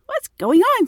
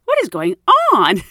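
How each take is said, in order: First: High, louder baffled What's going on; bewildered cry. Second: Baffled thought. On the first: Stunned at a stranger knowing her home, high bewildered cry. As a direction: pitch shoots up in disbelief. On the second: Confused inner thought, exclaimed. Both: Retold or imitated.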